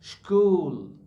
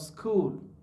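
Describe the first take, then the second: First: It begins with an sh sound. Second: It begins with an s sound. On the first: The speaker calls it wrong. "He is saying school" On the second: The speaker calls it right. "instead of school"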